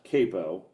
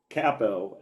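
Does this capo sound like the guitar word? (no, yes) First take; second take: yes; no. First: It is said like the guitar word. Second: It is not said like the guitar word. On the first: It names the clamp put on a guitar. The speaker calls it wrong. "not capo, uh, which is uh, what you put on a guitar" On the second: It names the fan-group leader. The speaker calls it right. "it is capo"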